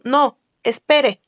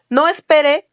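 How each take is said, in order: First: There is a pause after no. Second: It runs on without a pause after no. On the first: The listener is told to wait to be attended. "quiere decir que se le va a atender" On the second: The listener is told to leave now. "estoy indicando que ya se vaya"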